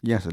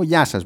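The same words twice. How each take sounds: First: Said in the usual way. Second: A louder, set counter-clerk hello; stock clerk greeting. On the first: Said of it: "λέω". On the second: Retold or imitated. Clerk greets her customer in the same stock clerk voice. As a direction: greet like every service clerk does. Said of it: "έχουνε την ίδια φωνή".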